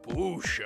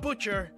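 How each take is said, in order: First: The name is pronounced Boucher, not butcher. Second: The name sounds like the word butcher. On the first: The speaker calls it right. "It's pronounced Boucher" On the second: The speaker calls it wrong. "not Butcher"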